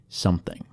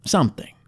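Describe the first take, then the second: First: Soft, fading murmur; trailing off. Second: Higher, searching repeat; musing. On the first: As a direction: let the word fall away. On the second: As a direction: lift it, turning the thought over. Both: A narrator's reading.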